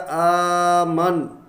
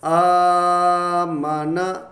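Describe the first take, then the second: First: The word ends on a bare n sound. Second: The word ends on a final vowel. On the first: The reader stops on this word. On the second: The reading continues without stopping.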